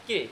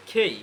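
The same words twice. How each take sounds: First: Said in the usual way. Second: খেই with a puff on K and an "ey" glide; aspirated, gliding খেই; aspirated pronunciation. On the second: Shown as a demonstration. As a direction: breathe out into "khey" for খেই. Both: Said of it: "কে এর উচ্চারণটা হবে".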